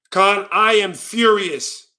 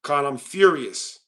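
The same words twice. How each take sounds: First: Very slow, emphatic fake rage; mock fury. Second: Low, slow deadpan claim of fury; mock fury. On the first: Streamer showing Khan how mad he is, emphatic mock fury. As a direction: declare it word by word with hammed-up gravity. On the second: Streamer showing Khan how mad he is, deadpan mock fury. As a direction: understate the rage, slow and low. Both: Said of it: "let me show you how mad I truly am".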